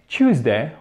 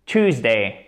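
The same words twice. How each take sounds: First: British Tuesday, said as CHOOZ-day; British English pronunciation. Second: American Tuesday, said as TOOZ-day; plain T and OO in American Tuesday; American English pronunciation. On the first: Teacher contrasting accents, British English Tuesday as CHOOZ-day. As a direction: start Tuesday with a British CH sound. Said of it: "en British English". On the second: Teacher contrasting accents, American English Tuesday as TOOZ-day. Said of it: "et en American English". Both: Shown as a demonstration.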